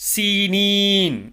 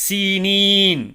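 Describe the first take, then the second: Both takes have the same delivery.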